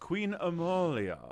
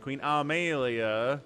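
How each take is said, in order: First: The name is said with a British pronunciation. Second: The name is said with an American pronunciation. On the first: "It's a more British pronunciation" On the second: "than the American version"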